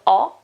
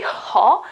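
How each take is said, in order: First: The word starts straight on the vowel. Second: The word starts with an audible breathy h. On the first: The speaker calls it right. "the H is mute, it's silent" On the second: The speaker calls it wrong. "you don't say ho"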